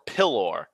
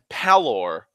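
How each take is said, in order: First: The first vowel is an 'i' sound. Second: The first vowel is an 'a' sound. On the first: "or an I" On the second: "change the the first fucking vowel from an E to an A"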